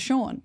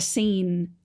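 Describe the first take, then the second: First: The name sounds like the word 'Shawn'. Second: The name sounds like the word 'scene'. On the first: The reader knows the name. The speaker calls it right. "you didn't know it was Sean" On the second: The reader does not know the name. The speaker calls it wrong. "children that are learning to read for the first time and they're like"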